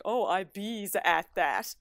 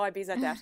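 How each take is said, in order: First: Slow, teasing copy of her Newfoundland bees; a partner's playful mock of "I bees at that"; mocking imitation. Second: Daughter's line. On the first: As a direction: mimic her dialect to poke fun. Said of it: "he just makes fun of me". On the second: Retold or imitated. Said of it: "She's like".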